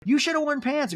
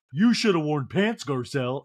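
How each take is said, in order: First: Much higher mock scolding; improvised scold, pitched way up; Crystal. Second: Failed Crystal impression. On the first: Crystal telling Garcelle off, high mock reproach. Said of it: "I don't have a Crystal voice". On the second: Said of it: "Crystal returns to the seat and points".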